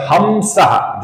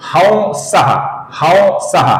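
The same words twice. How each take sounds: First: हमसः said with a plain m sound, ham-sah; हमसः, the common wrong way; wrong pronunciation. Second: हंसः with a light nasal glide, not a full m, slightly higher; हंसः said carefully, the right way; correct pronunciation. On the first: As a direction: demonstrate the mistake: हमसः with a clear m. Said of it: "जो गलत उच्चारण है". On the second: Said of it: "इसका सही उच्चारण है". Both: Shown as a demonstration.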